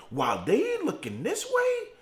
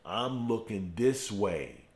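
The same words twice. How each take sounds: First: "way" held up high, left hanging; high, unfinished setup leaning on "way"; high contrastive setup. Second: "this" stressed in a low, slow line; slow, lowered payoff with weight on "this"; low, deliberate answer. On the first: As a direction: pitch the whole line high, leaving "way" suspended. Contrasts their direction with his own. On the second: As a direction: drop low and slow, landing on "this". His own direction, as the answer. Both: Real, not acted.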